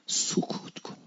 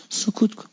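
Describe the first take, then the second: First: Soft whisper; whispered hush. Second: Said in the usual way. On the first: Shown as a demonstration. Preacher whispers the Imam's advice to stay silent. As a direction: breathe the word as a hush. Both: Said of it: "امام رضا گفت وقتی دیدی".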